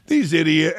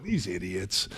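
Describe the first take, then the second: First: Said in the usual way. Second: "These idiots" low and soft in mock French accent. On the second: Host still in Parker's French accent.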